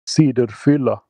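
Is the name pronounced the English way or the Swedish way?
Swedish. The name is pronounced with Swedish vowel sounds. "if you were from Sweden, you would say"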